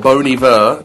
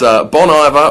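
First: The name is said with French-style pronunciation. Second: The name is said with English-style pronunciation.

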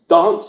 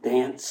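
First: It is said with a British accent. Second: It is said with an Australian accent.

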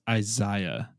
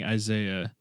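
First: Isaiah is pronounced the Hebrew way. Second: Isaiah is pronounced the common American way.

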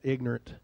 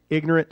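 First: The word is said shortened, with fewer syllables. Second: The word is said with all its syllables. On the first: "we shorten that" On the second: "we don't say ignorant"

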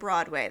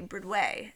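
First: It is said in a plain, ordinary way. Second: It is said in the Oh Hello characters' accent.

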